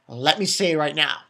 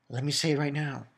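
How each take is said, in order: First: Said in the usual way. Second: Same words said again, softer; softer repeat. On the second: Shown as a demonstration. Recapping the episode, repeats it quietly. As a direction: drop the voice on the repeat.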